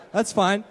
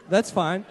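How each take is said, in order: Both takes have the same delivery.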